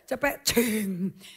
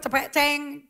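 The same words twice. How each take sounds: First: It is said in a Javanese accent. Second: It is said in a Chinese-Indonesian accent.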